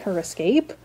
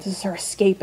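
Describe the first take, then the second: First: "escape" rising as a question; questioning echo. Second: Said in the usual way. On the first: Acted. Viewer doubting the show's claim of her escape, questioning.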